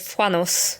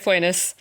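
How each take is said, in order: First: The name is pronounced in a French way. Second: The name is pronounced in an English way. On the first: "The French in me wants to say" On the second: "But we can say"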